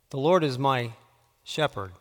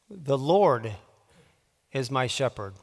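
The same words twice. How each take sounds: First: The emphasis falls on the word 'shepherd'. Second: The emphasis falls on the word 'Lord'. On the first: "putting the emphasis on a different word each time" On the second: "putting the emphasis on a different word each time"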